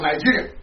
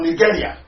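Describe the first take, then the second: First: Nigeria said with a soft j sound; first pronunciation. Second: Nigeria said with a hard g; alternative pronunciation. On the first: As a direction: say Nigeria as "ny-JEE-ria". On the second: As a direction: say Nigeria as "nee-GEH-ria". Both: Shown as a demonstration. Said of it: "or Nigeria".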